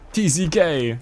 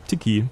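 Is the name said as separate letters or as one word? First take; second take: letters; one word. First: Each letter is spoken separately. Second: It is said quickly as one word. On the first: "Ich hoffe, ich spreche das richtig aus" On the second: "Tiki würde auch gehen. Wenn man es ganz schnell ausspricht"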